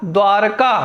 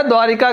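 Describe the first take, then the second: First: द्वारका without i, dvār-kā; correct pronunciation. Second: द्वारिका with an i, dvā-ri-kā; wrong pronunciation. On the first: Teacher answering with the right word, correct pronunciation. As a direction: say द्वारका as DVAAR-kaa. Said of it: "शुद्ध शब्द क्या है?". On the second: Teacher quoting the faulty form, wrong pronunciation. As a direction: say द्वारिका in three syllables with ri. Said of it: "की जगह क्या हो जाएगा?". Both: Shown as a demonstration.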